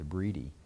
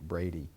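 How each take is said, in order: First: The first vowel sounds like 'bree'. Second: The first vowel sounds like 'bray'. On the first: This is how the family says the name. The speaker calls it right. "but it's Breedy" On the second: This is how most people said the name. The speaker calls it wrong. "Everybody was calling it Brady"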